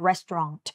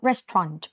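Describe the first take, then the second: First: The t sound is pronounced clearly. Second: The sounds are blended together more quickly. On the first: "อย่าลืมเสียงตัว T ด้วยนะลูกนะ" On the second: "หรือเราพูดว่า Restaurant ก็ได้ ... ก็คือควบเสียง"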